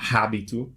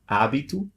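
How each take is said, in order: First: The word begins with an audible H sound. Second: The word begins with no H sound. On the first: The speaker calls it wrong. "it's not habito" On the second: The speaker calls it right. "just don't pronounce it"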